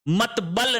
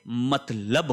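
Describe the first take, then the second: First: The b sound comes before the l. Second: The l sound comes before the b. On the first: The speaker calls it wrong. "मतबल नहीं होता है" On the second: The speaker calls it right. "मतलब होता है, पहले ल आएगा फिर ब आएगा"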